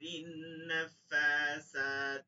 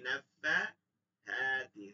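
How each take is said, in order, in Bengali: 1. মাঝের ব্যঞ্জনটি সাধারণ s ধ্বনি। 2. মাঝের ব্যঞ্জনটি নরম th ধ্বনি। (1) "এই যে সিন হয়ে গেছে" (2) "নাফাসাতি হবে কি? নাফাহাতি"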